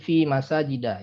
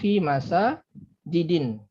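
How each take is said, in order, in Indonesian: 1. Kata terakhir berakhir dengan bunyi 'a' pendek. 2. Kata terakhir berakhir dengan bunyi 'in'. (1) "maka menjadi fi masajida ya"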